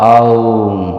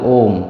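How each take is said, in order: First: An a-u glide ends in an m sound. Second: A single o vowel ends in an m sound. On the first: The speaker calls it right. "সঠিক উচ্চারণটা হবে আউম" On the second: The speaker calls it wrong. "আমরা অনেকে এটাকে ভুল উচ্চারণ করি"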